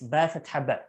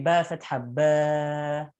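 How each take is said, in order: First: The vowels are said short and quick. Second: The vowels are stretched out long. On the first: The speaker calls it right. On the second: The speaker calls it wrong. "you don't say"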